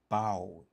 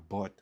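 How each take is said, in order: First: The vowel is long and open, like 'bought'. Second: The vowel is short, like in 'but'. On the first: The speaker calls it right. "Se bought" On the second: The speaker calls it wrong. "Se pa but"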